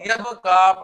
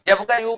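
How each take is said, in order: First: The word ends with a long 'a' sound. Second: The word ends with a short 'yu' syllable. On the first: The speaker calls it right. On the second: The speaker calls it wrong.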